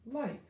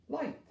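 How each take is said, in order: First: "Light" jumps up high and falls; bright answer. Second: Said in the usual way. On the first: Shown as a demonstration. Teacher blending the word for kids, high and bright. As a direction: pop "Light" up high with delight. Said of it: "Ooh, I".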